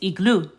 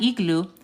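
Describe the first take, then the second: First: The stress is on the last syllable. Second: The stress is on the first syllable. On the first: The speaker calls it right. "you have accent emphasis over the U" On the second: The speaker calls it wrong. "this word is not igloo"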